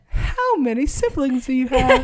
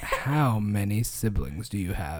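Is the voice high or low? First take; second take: high; low. First: It is said in a really high voice. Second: It is said in a lowered, deeper voice.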